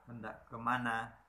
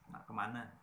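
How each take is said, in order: First: The phrase is said in its full form. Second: The phrase is said in a shortened form. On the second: "Jadi singkat tadi"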